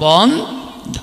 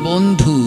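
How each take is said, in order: First: The word ends in an 'o' vowel. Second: The word ends in a 'u' vowel. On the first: It is plural and belongs to everyone. The speaker calls it right. "যখন রস্যুকার কেটে ওকার দেবেন, বন্ধ উচ্চারণ হবে বন্ধ, বহু বচন" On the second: It is singular and belongs to one. The speaker calls it wrong. "ভুল উচ্চারণ করি আমরা... বলি বন্ধু"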